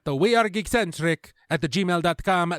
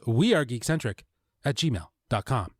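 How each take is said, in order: First: It is said in a put-on foreign accent. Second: It is said in his ordinary accent. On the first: The speaker calls it right. "let me do that again" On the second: The speaker calls it wrong. "the one time he didn't say it with an accent"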